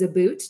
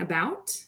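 First: The vowel is raised, Canadian-style, near 'aboot'. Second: The vowel sounds like plain American English. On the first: "it was about, despite boot" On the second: "instead of saying about"

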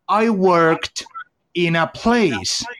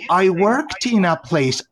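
First: The words are said separately, without linking. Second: The words are linked smoothly into each other. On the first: The speaker calls it wrong. "you cannot say I worked in a place" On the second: The speaker calls it right. "You say I worked in a place"

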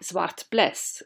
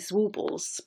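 First: The ending is pronounced like the word 'bless'. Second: The ending is pronounced like the end of 'able'. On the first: "as a Dutch speaker, my instinct is to say Zwart Bles" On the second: "In English we typically say Zwartballs, pronouncing the BLE as we would in the words able or possible"

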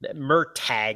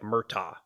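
First: The name is said with a flat American vowel. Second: The name is said with an Irish pronunciation. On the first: "Murtagh is the flat Americanized vowel" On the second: "the Irish way of saying it is more like Murtagh"

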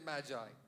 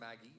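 First: It is not said like the name Maggie. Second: It is said like the name Maggie. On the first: The speaker calls it right. "Say Magi" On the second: The speaker calls it wrong. "Don't say Maggie. That's noodles"

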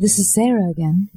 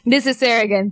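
First: It is said in a low, sultry put-on voice. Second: It is said in a plain everyday voice. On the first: "now it sounds like she's trying to hit on us" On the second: "Okay, nah"

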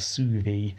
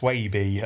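First: The name begins with a 'soo' sound. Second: The name begins with a 'sway' sound. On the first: The speaker calls it wrong. "I've just been horribly mispronouncing their name. I've been saying Suvi" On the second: The speaker calls it right. "It's Swaby, apparently"

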